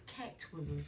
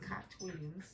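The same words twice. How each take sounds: First: Said in the usual way. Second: "Cat" said as "Kaht", in an accent; unidentified accent. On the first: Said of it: "Why did I say Cat Williams?". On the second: Real, not acted. Tarot reader echoing a name that came out, unidentified accent. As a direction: say "Cat" with a broad ah vowel, accented. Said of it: "It's an accent".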